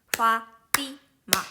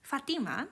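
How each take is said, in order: First: "Fatima" split into three equal beats, Fa, ti, ma; "Fatima" with a clear gap after each syllable; mora by mora. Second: Said in the usual way. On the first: Shown as a demonstration. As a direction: say "Fatima" as three separate, evenly timed sounds. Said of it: "the same length of the letter". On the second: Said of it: "normally just say Fatima".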